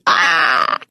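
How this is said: The cry is harsh with many mixed frequencies.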